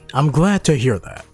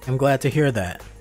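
First: It is read warmly, with some emotion. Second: It is read flatly, with no emotion. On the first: The speaker calls it right. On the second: The speaker calls it wrong.

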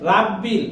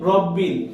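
First: The first vowel is an open 'aa' sound. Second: The first vowel is a rounded 'o' sound. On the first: The speaker calls it wrong. "অন্যান্য কোরআন মাজিদে দেওয়া হয়েছে রাব্বিল" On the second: The speaker calls it right. "আমরা এখানে শুদ্ধ করে নিয়ে এসেছি রব্বিল"

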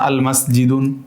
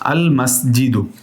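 First: The word ends with an n sound. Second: The word ends with a vowel sound. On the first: The speaker calls it wrong. "এটা ভুল" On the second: The speaker calls it right. "ঠিক আছে"

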